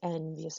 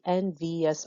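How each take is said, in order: First: The last two vowels merge into one syllable. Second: The word is said with three separate syllables. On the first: The speaker calls it right. "we can just easily change it" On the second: The speaker calls it wrong. "if we tried to make it three syllables, it would just sound weird"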